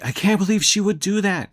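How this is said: It is said in an angry tone.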